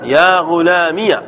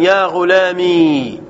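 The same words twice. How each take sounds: First: يا غلامي ending in a short "-miya"; fatha on the ya. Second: يا غلامي ending in a long "-mee"; drawn-out "ya ghulamee" for يا غلامي, no a after it; silent final ya. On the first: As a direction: slowly say يا غلامي as "ya ghulamiya". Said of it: "بالياء فتحا". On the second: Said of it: "وإسكانا". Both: Shown as a demonstration.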